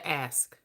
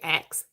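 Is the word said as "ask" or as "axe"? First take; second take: ask; axe. First: The word is said as "ask", with sk. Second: The word is said like "axe", with ks. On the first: This is how the speaker actually said it. The speaker calls it right. "I said ask" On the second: This is how someone else claims it was said. The speaker calls it wrong. "I didn't say ask"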